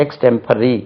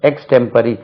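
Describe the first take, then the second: No difference in how they are said.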